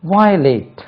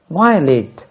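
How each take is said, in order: Both takes have the same delivery.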